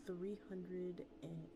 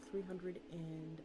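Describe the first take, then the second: No difference in how they are said.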